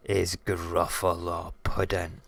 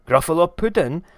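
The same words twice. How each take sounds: First: Said in the usual way. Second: High, loud alarmed echo; high-pitched shocked question; horrified Gruffalo. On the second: Acted. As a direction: shout it back in dismay at being dinner.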